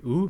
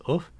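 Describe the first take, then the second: First: Said in the usual way. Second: Uf as retracted u fading into breath; pharyngealized vowel. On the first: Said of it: "u becomes uf". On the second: Shown as a demonstration. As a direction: pull the tongue root back on uf. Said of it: "letting it end with a breathy voice".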